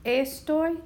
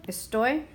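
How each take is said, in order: First: "estoy" as ES-toy, pitched up; stress on first syllable. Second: "estoy" as es-TOY, rising; stress on last syllable. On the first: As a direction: punch ES in "estoy". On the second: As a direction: put the weight on TOY in "estoy". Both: Shown as a demonstration. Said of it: "listen to where we hear the stress".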